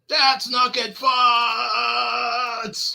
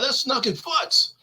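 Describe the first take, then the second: First: The last word is held out much longer. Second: The last word is stressed but fairly short.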